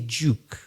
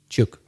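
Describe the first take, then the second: First: The word has a long oo vowel. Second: The word has a short vowel like look. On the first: This is the standard English pronunciation. "we don't say duke" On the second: This is how Belfast speakers say it. "We say juk, same as look"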